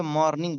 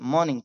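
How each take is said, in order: First: मॉर्निंग with the R sounded; common pronunciation. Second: मॉर्निंग with a silent R; corrected pronunciation. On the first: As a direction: say मॉर्निंग as "MOR-ning", R heard. (मॉर्निंग में र का साफ़ उच्चारण) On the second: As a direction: say मॉर्निंग as "MAW-ning". (मॉर्निंग में र बिना बोले, "मॉनिंग") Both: Shown as a demonstration. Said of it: "बहुत सारे लोग इसे मॉर्निंग बोलते हैं".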